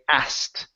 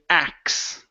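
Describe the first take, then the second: First: The k is pronounced but the t is dropped. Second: The sounds are swapped to sound like axe. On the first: The speaker calls it right. "skipping over the T. This is how most people pronounce the word" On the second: The speaker calls it wrong. "the base form or the street form... I would not recommend"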